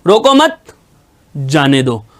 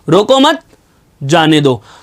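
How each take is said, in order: First: The pause comes after the word 'mat'. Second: The same.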